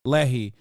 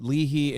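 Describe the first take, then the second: First: Lehi said as LEH-hee, short open first vowel; corrected pronunciation. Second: Leahy said as LEE-hee, long first vowel; unsure pronunciation. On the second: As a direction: say Leahy like lee-hee, not yet corrected. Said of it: "am I saying it right?". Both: Real, not acted.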